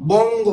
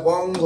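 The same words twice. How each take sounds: First: "বঙ্গ" higher and louder, both syllables held; sounding out. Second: Said in the usual way. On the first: Shown as a demonstration. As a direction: call out "বঙ্গ" slowly as a dictation word. Teacher announces word to spell.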